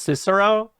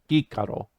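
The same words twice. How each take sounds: First: The name begins with a soft S sound. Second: The name begins with a hard K sound. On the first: This is how most people say it today. "Everyone says Cicero" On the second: This is how it was said in classical Latin. "the classical Latin pronunciation"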